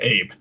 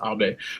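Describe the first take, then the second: First: The name has an American English pronunciation. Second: The name has a Japanese pronunciation. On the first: The speaker calls it wrong. "In America, we pronounce it Abe" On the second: The speaker calls it right. "but it's pronounced Abe"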